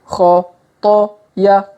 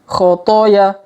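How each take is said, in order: First: The syllables are read slowly and separately. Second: The syllables are read quickly and run together. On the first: "kita baca pelan-pelan" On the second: "Kalau dipercepat"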